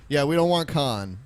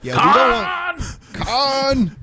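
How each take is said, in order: First: Said in the usual way. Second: Loud, slow mock outcry; shouting. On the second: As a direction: belt it out in protest. Shouted joke about Khan.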